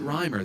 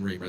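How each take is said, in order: First: The first vowel sounds like 'eye'. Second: The first vowel sounds like 'ee'. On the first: The speaker calls it wrong. "The I made me think that there was an I noise" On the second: The speaker calls it right. "you said it correctly"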